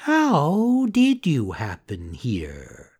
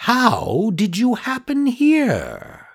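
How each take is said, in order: First: Slow, echoing sly cat; a lightly voiced cat parroting. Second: High, slow, sly fox. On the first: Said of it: "repeated the cat". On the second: Acted. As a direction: fake friendly fox. Fox asks Pinocchio.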